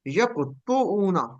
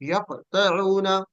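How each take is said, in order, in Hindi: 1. t के बाद का स्वर 'u' है। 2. t के बाद का स्वर 'a' है। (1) "ता के ऊपर पेश होती" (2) "ता के ऊपर जबर है"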